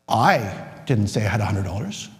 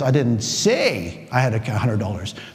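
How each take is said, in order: First: The first word "I" is stressed. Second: The word "say" is stressed. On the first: "I'm not the one who said one hundred dollars" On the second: "Notice how I changed the word I say say"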